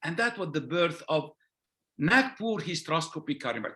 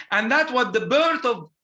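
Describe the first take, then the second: First: Said in the usual way. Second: Louder, punched "birth" on the repeat; emphatic repeat. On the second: Real, not acted. Surgeon stressing the rebirth of hysteroscopy to his audience, emphatic. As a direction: hit "birth" hard the second time.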